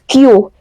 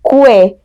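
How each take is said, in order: First: The word sounds just like the letter Q. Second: The word does not sound like letter Q. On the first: The speaker calls it right. "It's Q. Just basically Q" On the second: The speaker calls it wrong. "Oftentimes people will uh, will usually say this as que, but it's not"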